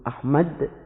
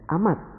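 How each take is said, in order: First: The final d sound is pronounced clearly. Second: The final d sound is heavily altered. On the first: The speaker calls it right. "kalau mereka menyebut Ahmad" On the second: The speaker calls it wrong. "yang lama-kelamaan menjadi Ahmad"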